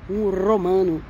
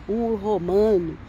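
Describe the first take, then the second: The two takes are said the same way.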